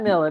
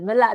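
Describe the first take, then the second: First: The name ends with an r sound. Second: The name ends without an r sound. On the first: The speaker calls it wrong. "not Miller" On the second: The speaker calls it right. "Mille, not Miller"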